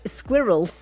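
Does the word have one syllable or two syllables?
two. The word is said with two syllables. "has definitely two syllables when you say it in British English"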